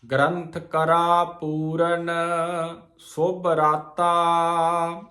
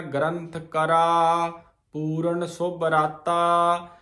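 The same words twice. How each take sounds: First: Slow, with a pause after Puran before ਸੁਭ ਰਾਤਾ. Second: Slow, pausing after ਕਰਾ instead of after Puran; wrong pause. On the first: Teacher showing the sangat the pause after Puran. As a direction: rest on Puran, then ਸੁਭ ਰਾਤਾ slowly. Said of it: "ਇਹਦਾ ਵਿਸਰਾਮ ਪੂਰਨ". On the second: Teacher showing the sangat the wrong pause after ਕਰਾ. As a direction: break after ਕਰਾ, the common mistake. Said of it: "ਆਪਾਂ ਕਈ ਵਾਰ ਇਹਦਾ ਵਿਸਰਾਮ ਲਾਉਂਦੇ ਆ". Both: Shown as a demonstration.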